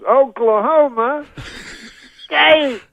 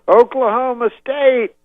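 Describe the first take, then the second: First: It is said more slowly, drawn out. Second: It is said at normal speed.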